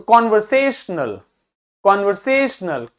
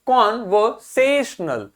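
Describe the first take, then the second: First: conversational as one word, से stressed; quick light opening, weighty से in conversational. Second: conversational slowly broken up, से stressed; slow teaching breakdown of conversational; syllable by syllable. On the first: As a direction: hit से in conversational. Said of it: "से आपको अलग से सुनाई दे रहा". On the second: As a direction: break conversational into parts, leaning on से. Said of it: "इस पे थोड़ा ज्यादा जोर देना है". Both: Shown as a demonstration.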